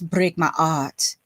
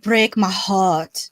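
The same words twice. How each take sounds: First: The h in 'heart' is dropped. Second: The h in 'heart' is pronounced. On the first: The speaker calls it right. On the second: The speaker calls it wrong.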